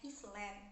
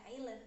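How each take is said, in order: First: The s sound is clearly pronounced in the word. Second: The s sound is silent in the word. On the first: The speaker calls it wrong. "mereka itu membacanya Island dan terdapat pelafalan yang berbeda" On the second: The speaker calls it right. "sebenarnya itu dibaca island"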